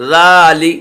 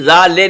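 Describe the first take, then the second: First: ذا لی with a short clear ee in لی; right small ya. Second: ذا لے with the e sound of لے, the wrong way; wrong majhool e. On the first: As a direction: say لی with ee, not e. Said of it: "چھوٹی یا کی آواز نکالیں گے". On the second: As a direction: say لے as a flat e, not ee. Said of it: "ذا لے نہیں پڑھیں گے". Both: Shown as a demonstration.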